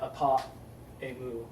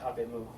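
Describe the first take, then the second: First: Both vowels are kept, with a glottal stop between. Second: The first vowel drops; the words run together. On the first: The speaker calls it wrong. "that glottal stop where you're choking on your tongue" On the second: The speaker calls it right. "you just say apemu"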